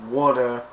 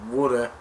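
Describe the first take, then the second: No difference in how they are said.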